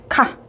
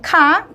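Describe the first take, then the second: First: The pitch of the syllable is not raised. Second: The pitch of the syllable is raised high. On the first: It politely agrees or acknowledges. "단음절의 일성으로 발음이 돼요" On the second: It politely asks a question. "카라고 좀 올려주시면 돼요"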